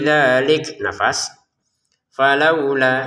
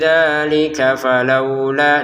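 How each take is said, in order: First: There is a stop and breath before falaula. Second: The words run together without a break. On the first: The speaker calls it wrong. "Kalau berhenti" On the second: The speaker calls it right. "Itu kalau disambung"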